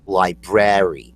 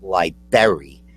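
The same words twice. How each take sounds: First: Both R sounds are pronounced in the word. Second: The first R sound is dropped from the word. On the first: The speaker calls it right. "There's two R's. There's B R A R Y" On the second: The speaker calls it wrong.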